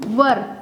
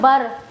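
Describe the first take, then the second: First: It is said with a short 'ur' vowel. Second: It starts with a 'b' sound. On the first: The speaker calls it right. "Right pronunciation is वर" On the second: The speaker calls it wrong. "Not बर"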